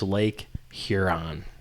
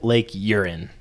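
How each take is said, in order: First: The name is said with an h sound. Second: The name is said without an h sound. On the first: The speaker calls it right. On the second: The speaker calls it wrong.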